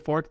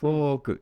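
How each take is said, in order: First: It is one short syllable ending in k. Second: The vowel is drawn out, ending in an extra ku. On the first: The speaker calls it wrong. "If you say fork, they will not understand" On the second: The speaker calls it right. "drags out"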